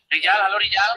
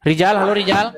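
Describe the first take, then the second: First: Echo. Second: Said in the usual way. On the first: Real, not acted. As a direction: voice echoing back through the call. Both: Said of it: "Suaramu menggema".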